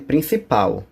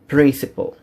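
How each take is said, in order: First: It is pronounced with Portuguese sounds. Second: It is pronounced with English sounds. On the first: The speaker calls it wrong. "Cuidado para não chamar de principal, ok? Porque isso aí é em português" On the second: The speaker calls it right. "No inglês, a pronúncia é diferente. É principal"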